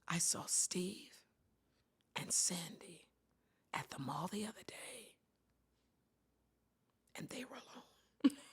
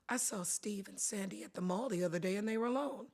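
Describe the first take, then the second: First: The tone is suggestive and insinuating. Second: The tone is casual and matter-of-fact. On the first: Something improper may be going on. "if I did it like this ... Same words, but different tone" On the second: Nothing unusual happened. "Just by the words and the tone, you can say, Linda, big deal"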